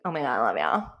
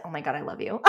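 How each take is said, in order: First: Lower, laughing girly imitation; girl voice. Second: Said in the usual way. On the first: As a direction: mimic a gushing girl, laughing. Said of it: "in a girl voice". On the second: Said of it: "And she said".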